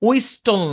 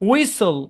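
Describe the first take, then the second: First: The t sound is clearly pronounced. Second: The t sound is left out. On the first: The speaker calls it wrong. "উইস্টল না" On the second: The speaker calls it right.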